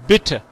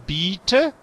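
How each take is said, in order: First: The first vowel is clipped short. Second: The first vowel is drawn out long. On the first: The speaker calls it right. "cuando es corto, es bitte" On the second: The speaker calls it wrong. "tu hablas muy largo"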